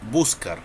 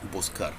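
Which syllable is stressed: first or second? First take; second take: first; second. First: The stress is on the first syllable. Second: The stress is on the second syllable. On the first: The speaker calls it wrong. "no decimos buscar" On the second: The speaker calls it right. "la sílaba que más entona es car"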